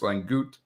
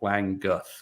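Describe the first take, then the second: First: The surname is said with a German pronunciation. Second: The surname is said with an anglicized pronunciation. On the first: This is the traditional form of the name. "if you go with the traditional, you know, northern German pronunciation" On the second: This is how the family says the name. "the family has always pronounced it"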